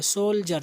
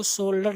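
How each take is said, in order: First: "सोल्जर" with a clear j in the middle; j-sound demo. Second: "सोल्डर" with a hard d in place of the j; wrong-way demo of "सोल्डर", d not j; mispronounced soldier. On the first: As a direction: pronounce "सोल्जर" as sol-jer, no d. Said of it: "जा के आवाज आएगी". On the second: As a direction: say "सोल्डर" with a d sound, as a learner's mistake. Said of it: "आप इसको सोल्डर नहीं पढ़ेंगे". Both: Shown as a demonstration.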